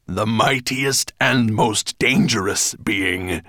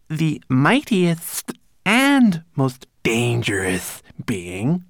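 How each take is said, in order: First: Loud, slow, emphatic dragon correction; interrupting correction. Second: High, slow, drawn-out recitation; obediently recited. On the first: Dragon correcting his storyteller, loud and emphatic. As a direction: cut in and stress each missing word. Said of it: "Nettlebrand interrupted". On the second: Servant repeating the corrected line, reciting high and slow. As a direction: recite it back carefully, like a dutiful servant. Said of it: "Twigleg obediently recited". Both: A narrator's reading.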